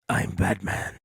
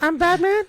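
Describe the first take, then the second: First: A deep, gravelly Batman voice. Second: A weak, unsure imitation of the Batman voice.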